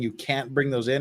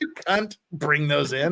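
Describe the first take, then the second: First: The second word is said with a clear 'a' vowel. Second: The second word is said with a short 'u' vowel. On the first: "you're saying you can't bring those in" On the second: "That's what it sounded like"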